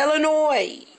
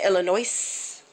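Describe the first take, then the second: First: Northern way, with the final S silent. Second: Southern way, with the final S pronounced.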